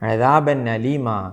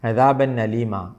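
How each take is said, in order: No difference in how they are said.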